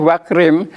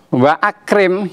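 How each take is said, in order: First: Wa runs straight into krim without a catch. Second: A glottal catch separates wa from akrim. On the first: The speaker calls it wrong. "tidak boleh wakrim" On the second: The speaker calls it right. "ditulis dan dibaca"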